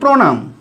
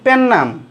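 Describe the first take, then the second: First: The word is said in its full form. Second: The word is said in a reduced colloquial form. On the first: The speaker calls it right. "আমরা সবাই বলি প্রণাম" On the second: The speaker calls it wrong. "মনে হয় পেন্নাম এটা আবার কি অশুদ্ধ উচ্চারণ"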